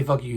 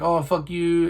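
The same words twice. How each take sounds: First: Said in the usual way. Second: Sarcastic jab. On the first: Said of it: "He didn't say". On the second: Retold or imitated. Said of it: "He was very sarcastic".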